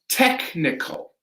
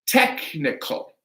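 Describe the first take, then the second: Both takes have the same delivery.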